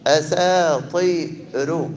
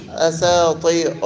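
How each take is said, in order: First: أساطير slowly, thin raa; correct reading. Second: أساطير with a heavy raa; the mistaken version; wrong reading. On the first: Teacher slowly shows students the thin raa in أساطير. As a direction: stretch أساطير and keep the raa light. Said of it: "لأن بلاتي". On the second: Teacher warns students against a heavy raa in أساطير. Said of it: "ما نقولوش أساطير". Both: Shown as a demonstration.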